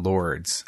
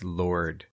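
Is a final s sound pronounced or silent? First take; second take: pronounced; silent. First: The word ends with an audible s sound. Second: The word ends without any s sound. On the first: The speaker calls it wrong. "it's not Lords" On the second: The speaker calls it right. "It's Lord"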